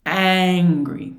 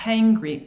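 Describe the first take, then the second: First: "angry" starting hard on the vowel, loud; loud, drawn-out "angry" without any H. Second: "hangry" opened with a long huffed H; heavy breathy H starting "hangry"; exaggerated H. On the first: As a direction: hit the "a" of "angry" with no breath before. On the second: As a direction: puff out the H, then "angry": "hangry". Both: Shown as a demonstration. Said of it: "What's the difference between".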